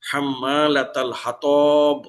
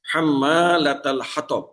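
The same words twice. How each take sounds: First: হাতব with ṭa stretched into a long aa, slow; হাম্মালাতাল হাতব dragged out on ṭa; wrong drawn-out vowel. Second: হাতব with short a on ṭa; হাম্মালাতাল হাতব, ṭa kept short; correct short vowel. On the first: Teacher shows students the wrongly lengthened vowel, slow stretched recitation. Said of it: "যদি আলিফ মাদ করে পড়ি". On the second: Teacher recites the correct short vowel for students. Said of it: "উচ্চারণ করতে হবে দ্রুত". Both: Shown as a demonstration.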